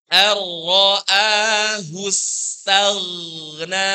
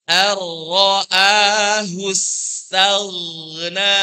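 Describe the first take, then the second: The two takes are said the same way.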